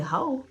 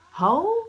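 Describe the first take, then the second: First: Raised-pitch, affronted repeat; first, milder indignant echo; incredulous echo. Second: Loud, very high incredulous question; outraged echo. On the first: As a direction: echo the insult in disbelief. Echoing the insult in disbelief. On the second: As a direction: throw it back, scandalized. Repeating insult, more outraged. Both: Retold or imitated.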